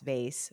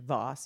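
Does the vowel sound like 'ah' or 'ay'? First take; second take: ay; ah. First: The vowel is an 'ay' sound. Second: The vowel is a long open 'ah' sound. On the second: "What is the right pronunciation? Voss"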